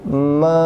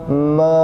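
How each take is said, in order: First: It starts with a nasal hum before opening. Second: It starts with a nasal hum before opening.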